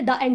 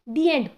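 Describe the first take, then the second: First: The article is said with a short 'thuh' vowel. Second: The article is said with a long 'thee' vowel. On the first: The speaker calls it wrong. "हम कभी ये तो नहीं बोलते द end हो गया" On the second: The speaker calls it right.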